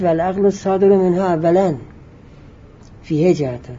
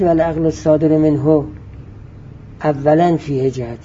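First: The break falls after awwalan, joining what precedes. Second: The break falls before awwalan, joining what follows. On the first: The intellect issued first from it has two aspects. The speaker calls it right. "این کلمه اولا رو مربوط کنید به صادر، یعنی مربوطش کنید به قبل" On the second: The intellect has, firstly, two aspects. The speaker calls it wrong. "مربوطش نکنید بعد. نگید"

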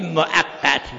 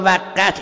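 First: The word is said with a glottal stop. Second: The word is said without a glottal stop. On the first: The speaker calls it right. "صحیح با دیگه مؤقت" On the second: The speaker calls it wrong. "ما ها میگیم موقت، این غلطه"

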